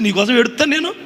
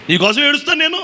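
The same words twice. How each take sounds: First: Said in the usual way. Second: నేను said louder and higher; emphatic repeat. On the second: Shown as a demonstration. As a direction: drive home నేను with force.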